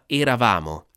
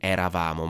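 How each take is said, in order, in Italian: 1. La prima E è chiusa. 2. La prima E è aperta. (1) "la vocale tonica chiude tutte le altre vocali" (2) "non eravamo"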